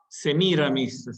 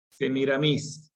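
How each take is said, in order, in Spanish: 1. El acento cae antes de la última sílaba. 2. El acento cae en la última sílaba. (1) "sería en castellano" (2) "acento en la última por influjo francés"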